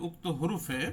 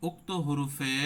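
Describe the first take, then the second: Both takes have the same delivery.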